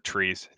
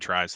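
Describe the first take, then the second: First: The name is said with the vowel of 'trees'. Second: The name is said with the vowel of 'tries'. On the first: The speaker calls it right. "or Trees. Is that how you say it?" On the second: The speaker calls it wrong. "I always read it as tries"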